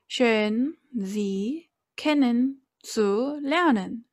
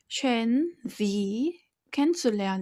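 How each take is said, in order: First: Each syllable is said separately, Korean style. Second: The phrase flows smoothly in native German style.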